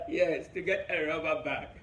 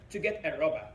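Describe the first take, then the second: First: "rubber bag" drawn out slowly and weighted; slow stress on rubber bag. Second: Said in the usual way. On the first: Shown as a demonstration.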